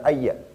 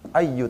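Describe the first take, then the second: First: The word ends with an 'a' vowel. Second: The word ends with a 'u' vowel. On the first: The speaker calls it wrong. "bukan ayya" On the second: The speaker calls it right. "Ayyu tetap di sini"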